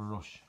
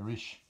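First: The vowel sounds like the one in 'cut'. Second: The vowel sounds like the one in 'sit'. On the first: This is the usual form used elsewhere. "Instead of a rush" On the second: This is the local form used here. "you don't say rushes here, you say... Rishes"

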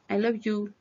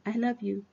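First: 'You' starts with a hard, j-like y sound. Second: 'You' starts with a soft ee-like glide. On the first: The speaker calls it wrong. "No se dice you" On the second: The speaker calls it right. "Con una I y una U. No es con la Y"

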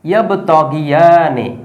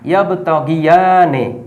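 No difference in how they are said.

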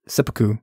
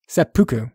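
First: The stress is on the first syllable. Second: The stress is on the second syllable. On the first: The speaker calls it wrong. "I actually said emphasis on the first syllable when I said it the first time" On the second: The speaker calls it right. "it's emphasis on the second syllable"

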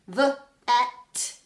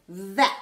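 First: The word is said as separate sounds with a break between them. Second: The word is said as one smooth unit with no break. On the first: "And we can do that on our arm" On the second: "Blend it together"

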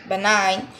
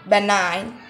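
The two takes are said the same way.

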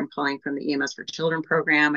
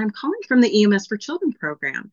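First: The voice sounds flat and dull. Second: The voice sounds warm and smiling. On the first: The caller seems uninterested. The speaker calls it wrong. "That sounds a little drab" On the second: The caller seems engaged and friendly. The speaker calls it right. "if I'm smiling and I say"

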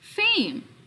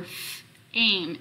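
First: The f sound is joined to the rest. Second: The f sound is said apart from the rest. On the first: "I put them together to get the word fame" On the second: "I'm going to change it to the F sound for F-aim"

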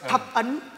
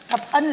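First: The second syllable has a high rising tone. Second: The second syllable has a level tone. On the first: Ten seals. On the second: Ten favours.

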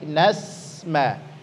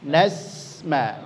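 First: The s-sound flows out with breath. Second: The s-sound flows out with breath.

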